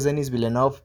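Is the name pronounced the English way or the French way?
English. The name is said with English pronunciation. "si lo pronuncias en inglés es"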